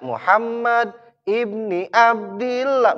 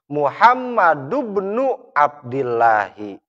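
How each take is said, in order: First: The word 'ibn' ends with an i vowel. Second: The word 'ibn' ends with a u vowel. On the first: The phrase is read as a possessive construction. The speaker calls it wrong. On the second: The phrase is read as a descriptive construction. The speaker calls it right.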